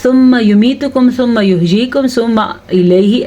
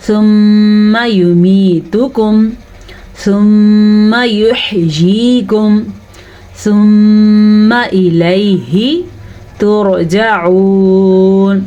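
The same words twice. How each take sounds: First: Quicker, careless reading with no nasal holds; imitating an untrained reader hurrying the verse; recitation without tajweed. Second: Very slow recitation with long nasal holds; measured Quranic recitation, vowels drawn out; tajweed recitation. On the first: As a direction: rattle through the phrases without stretching. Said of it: "تجوید سے نہیں پڑھتا تو وہ کیسے پڑھتا ہے". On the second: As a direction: hold each doubled meem in a hum. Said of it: "یہ تو ہم نے پڑھا تجوید سے". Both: Shown as a demonstration.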